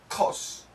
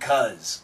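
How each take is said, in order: First: It is said with the British vowel. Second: It is said with the American vowel. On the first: "I believe in the UK and Great Britain, they don't say C-U-Z, they say C-O-S" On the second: "But in America, we say C-U-Z"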